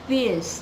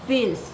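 No difference in how they are said.

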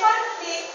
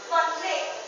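First: The stress is on the first syllable. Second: The stress is on the second syllable. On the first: It is a noun: a disagreement or clash. "the word conflict has a stress in the first syllable, it becomes a noun" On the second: It is a verb: to clash or hinder. "The last syllable was put the stress, and so it became a verb"

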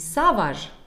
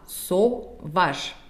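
First: The first vowel sounds like 'a'. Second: The first vowel sounds like 'o'. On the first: The speaker calls it wrong. "Не savage" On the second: The speaker calls it right. "а sauvage, потому что A-U читается как один всего лишь звук. О"

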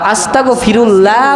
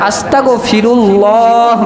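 First: The 'l' of Allah is light and thin. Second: The 'l' of Allah is heavy and thick. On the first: The speaker calls it wrong. "আস্তাগফিরুল্লাহ বললে তার তিবের খেলাফ হয়ে যাবে" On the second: The speaker calls it right. "আস্তাগফিরুল্লাহ বলতে হবে"

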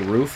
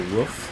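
First: Roof is said the usual, non-American way. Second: Roof is said in a stereotyped American way. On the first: "They don't say roof" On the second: "they say the word roof weird"

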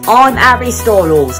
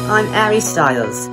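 First: It is said with a strong British accent. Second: It is said with a milder, less British accent.

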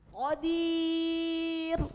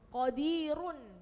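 First: The r is light and thin, word cut short. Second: The r is heavy and thick, ending in -un. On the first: The reading stops at this word. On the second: The reading continues without stopping. "Itu kalau dibaca wasol, roknya tebal"

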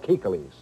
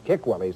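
First: The middle syllable starts with a plain k. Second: The middle syllable starts with a kw sound. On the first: The speaker calls it right. "semi-subterranean dwellings called kikilis" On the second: The speaker calls it wrong. "we call them sometimes kikwellies. That's incorrect"

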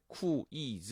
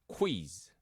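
First: It is said slowly as two separate syllables. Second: It is said quickly as one merged syllable. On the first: The speaker calls it wrong. "또박또박 하시면 안 되고" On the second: The speaker calls it right. "싹 지나 순식간에"

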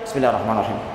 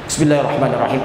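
First: It is said quietly, away from the microphone. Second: It is said aloud in a full voice. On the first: It is the silent way of reciting the opening phrase. "yang kedua sir, silent" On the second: It is the audible way of reciting the opening phrase.

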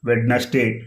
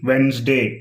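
First: The middle d sound is pronounced. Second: The middle d sound is silent. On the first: The speaker calls it wrong. "వెడ్నెస్డే అనకూడదు" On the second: The speaker calls it right. "వెన్స్డే అని పలకాలి"

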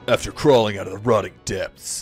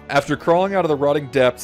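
First: It is read in a dramatic put-on voice. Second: It is read in a plain, normal voice. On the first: The speaker calls it right. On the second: The speaker calls it wrong.

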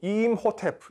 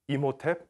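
First: An h sound follows the m. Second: There is no h sound after the m. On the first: This is the original ancient name. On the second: This is the film's version of the name.

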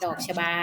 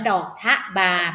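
First: The syllables are said quickly and run together. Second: The syllables are said slowly and fully. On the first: The speaker calls it right. "เราต้องพูดเร็วๆค่ะดอกชบาแบบนี้" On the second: The speaker calls it wrong. "ไม่อ่านว่าดอกชะบาแบบนี้ผิดนะคะ"

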